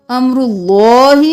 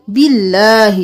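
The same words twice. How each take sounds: First: اللہ with a thick, full lam after pesh; heavy lam in Allah. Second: باللہ with a thin lam after zer; light lam in Allah. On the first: Teacher shows the heavy lam after a pesh in امر اللہ. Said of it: "یہاں پر اس میں جلالہ سے پہلے پیش ہے". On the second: Teacher contrasts the light lam after a zer in باللہ. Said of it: "اس میں جلالہ سے پہلے زیر ہے". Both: Shown as a demonstration.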